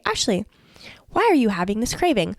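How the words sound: It is said in a gentle, curious tone.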